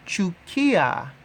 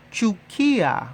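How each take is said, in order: Both takes have the same delivery.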